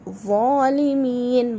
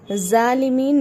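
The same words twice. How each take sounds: First: ज़ालिमीन slow with a thick emphatic z; heavy zoe. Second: ज़ालिमीन with a thin plain z, the wrong way; wrong light z. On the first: Teacher giving students the right ज़ालिमीन, heavy zoe. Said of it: "ज़ालिमीन बोलेंगे". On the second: Teacher warning students, a wrong thin z on ज़ालिमीन. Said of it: "ज़ालिमीन नहीं बोलेंगे". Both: Shown as a demonstration.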